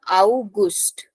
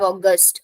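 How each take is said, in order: First: It is said with a German pronunciation. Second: It is said with an English pronunciation. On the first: "Gust is Gust in German" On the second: "In English, we have August"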